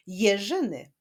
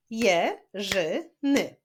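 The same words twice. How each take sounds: First: Said in the usual way. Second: "jeżyny" slowly split as je... ży... ny; long pause after each syllable of "jeżyny". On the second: Shown as a demonstration. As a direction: clap out "jeżyny" in three separate beats. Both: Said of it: "Zapraszam do wyklaskiwania sylab".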